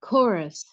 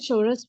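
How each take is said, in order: First: The word begins with a 'k' sound. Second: The word begins with a 'ch' sound. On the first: The speaker calls it right. "इसे कोरस ही पढ़ा जाता है" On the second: The speaker calls it wrong. "कुछ लोग इसे चोरस भी पढ़ते हैं, लेकिन ये गलत है"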